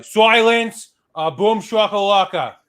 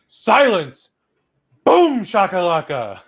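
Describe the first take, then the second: First: Put-on Boston accent. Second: Smug Boston lawyer. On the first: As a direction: shout it Boston-style, slowly. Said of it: "You gotta do it with a Boston accent". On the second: Retold or imitated. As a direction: declare it like a cocky lawyer. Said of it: "A fucking Boston lawyer just goes".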